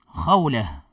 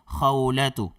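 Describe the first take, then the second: First: The name ends in a soft h sound. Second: The name ends with a full 'tu' syllable. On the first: "magiging ha po ang kanyang tunog" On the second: "Kung lalagyan natin ng patinig sa dulo"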